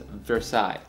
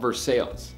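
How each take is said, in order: First: The name is said with a French pronunciation. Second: The name is said with an anglicized pronunciation. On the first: This is the original French pronunciation. The speaker calls it right. "it's supposed to be called or pronounced as" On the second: This is how locals in Kentucky say it. The speaker calls it wrong. "down there, they call it Versailles"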